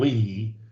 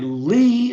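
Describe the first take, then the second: First: The pitch goes down on the name. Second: The pitch goes up on the name. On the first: "or I go down" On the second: "I come up"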